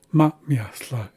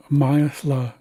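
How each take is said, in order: First: "Ma, miasla" with a brief stop after "Ma"; plural, glottal break. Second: "miasla" as one unbroken word; singular form. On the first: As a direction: hold the breath briefly between "Ma" and "miasla". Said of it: "a plural form". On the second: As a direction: say "miasla" straight through, without a glottal break. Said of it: "it's a singular form". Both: Shown as a demonstration.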